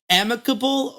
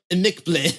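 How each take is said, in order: First: Amicable as AM-i-ka-bul; English pronunciation. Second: Amicable as uh-MEEK-blay; mock-fancy pronunciation. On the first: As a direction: stress the first syllable of amicable. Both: Shown as a demonstration. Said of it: "Is it amicable or amicable".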